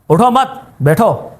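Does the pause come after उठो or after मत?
after मत. The pause comes right after मत.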